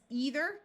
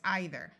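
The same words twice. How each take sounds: First: The first vowel is a long E sound. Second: The first vowel is a long I sound. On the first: "with a long E sound" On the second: "with a long I sound"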